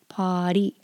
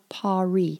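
First: The r is a quick tap of the tongue. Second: The r is a smooth English r. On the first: The speaker calls it right. "which is the flapped R" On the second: The speaker calls it wrong. "It's not the English R. It's not pari"

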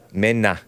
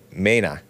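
First: The name is said with a Spanish pronunciation. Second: The name is said with a Spanish pronunciation.

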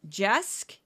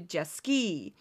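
First: The name ends without a final vowel sound. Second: The name ends with an added ee vowel sound. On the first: The speaker calls it wrong. "He mispronounced my last name, a common mistake. People assume the E is silent" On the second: The speaker calls it right. "is pronounced closer to Jesky"

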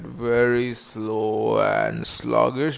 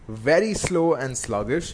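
First: It is said slowly and sluggishly. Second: It is said at a normal, brisk pace.

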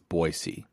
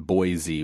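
First: The middle consonant is a hissing s sound. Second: The middle consonant is a buzzing z sound. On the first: The speaker calls it right. "It's a soft S. You pronounce the S like an S" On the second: The speaker calls it wrong. "it's not Boise with a Z"

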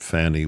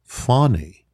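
First: The first vowel sounds like in 'fan'. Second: The first vowel sounds like in 'father'. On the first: The speaker calls it wrong. "her name is not Fannie Willis" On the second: The speaker calls it right. "It's Fonnie"

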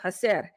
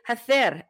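First: It is said with a Latin American accent. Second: It is said with a Spain accent.

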